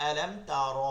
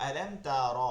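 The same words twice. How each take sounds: The two takes are said the same way.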